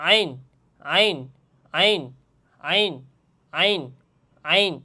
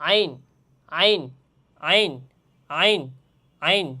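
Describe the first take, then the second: Both takes have the same delivery.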